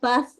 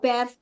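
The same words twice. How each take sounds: First: It is said in a British accent. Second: It is said in an American accent. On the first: "kalau Bath itu kan British" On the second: "kalau Bath itu Amerika"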